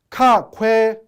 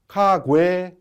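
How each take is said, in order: First: The second consonant sounds hard and aspirated. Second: The second consonant sounds soft and voiced. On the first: It is read letter by letter as spelled. The speaker calls it wrong. "쓴 대로 읽으면" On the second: It is how native speakers actually say it. The speaker calls it right. "이런 형태가 되고"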